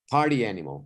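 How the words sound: The stress falls on the word party. A person who loves partying. The speaker calls it right. "The intonation shifted to emphasizing party over animal"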